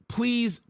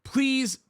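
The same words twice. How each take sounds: The two takes are said the same way.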